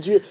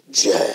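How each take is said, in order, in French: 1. Il est dit d'une voix normale. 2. Il est dit d'une voix théâtrale, dramatique. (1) "Au lieu de dire Dieu" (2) "vous changez de voix"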